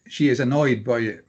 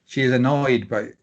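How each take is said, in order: Both takes have the same delivery.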